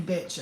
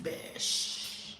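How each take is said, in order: First: Said in the usual way. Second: "bitch" softened to a long "bish"; playful "bish" pronunciation. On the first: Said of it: "I don't mean bitch". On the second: Shown as a demonstration. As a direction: stretch "bitch" out with a hushing sh ending. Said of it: "I mean, like, bitch".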